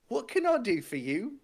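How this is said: It is said in a high-pitched voice. The speaker calls it wrong. "I didn't mean to do that high pitched a voice"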